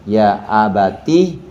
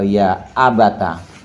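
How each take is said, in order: First: The t is followed by an i vowel. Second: The t is followed by an a vowel. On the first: "Boleh dibaca kasroh" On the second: "boleh dibaca fathah"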